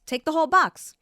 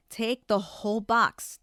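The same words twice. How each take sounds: First: Much higher and louder, snapping; exasperated outburst. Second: Said in the usual way. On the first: Retold or imitated. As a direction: let the irritation burst out loud. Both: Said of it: "And then I'm like".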